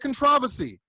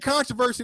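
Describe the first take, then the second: First: It is said with a British pronunciation. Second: It is said with an American pronunciation. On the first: The speaker calls it wrong. "They say controversy" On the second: The speaker calls it right. "they don't even say controversy"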